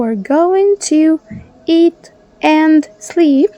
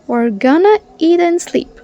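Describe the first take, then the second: First: Going to is said in full, more slowly. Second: Going to is reduced to gonna, said fast.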